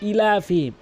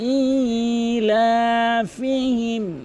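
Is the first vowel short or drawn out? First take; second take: short; drawn out. First: The vowel after the first sound is short. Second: The vowel after the first sound is drawn out. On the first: The speaker calls it wrong. "অধিকাংশ লোক বলে" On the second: The speaker calls it right. "একালিফ টেনে পড়তে হবে"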